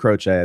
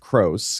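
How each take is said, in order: First: The name is said with Italian sounds. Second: The name is said with American English sounds. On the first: This is the original pronunciation of the name. "That's the Italian pronunciation" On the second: This is how the family actually says the name. "because it was Americanized"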